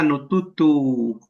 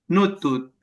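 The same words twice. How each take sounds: First: "nututu" with the last U drawn out; corrected form. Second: "Nutut" stopped abruptly on the final T; very short. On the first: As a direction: stretch the final vowel of "nututu" slowly. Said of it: "Y nos queda". ("nututu" con la U final alargada) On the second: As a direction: say "Nutut" oddly short, ending on T. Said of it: "muy corto". ("Nutut" muy corto, terminado en T) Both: Shown as a demonstration.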